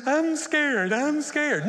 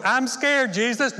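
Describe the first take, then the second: First: High, loud scared wail; hammed-up fear; mock terror. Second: High, loud fearful plea; hammed-up scared plea; mock fear. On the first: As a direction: whimper it out loud like a terrified passenger. Clinging to controls in panic. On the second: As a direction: beg Jesus, frightened and clinging. Refusing to give Jesus controls.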